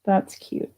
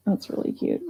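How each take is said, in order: First: Said in the usual way. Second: Hushed private aside, no voice; whispered admiration. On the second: Real, not acted. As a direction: whisper it to yourself. Repeats the praise under her breath.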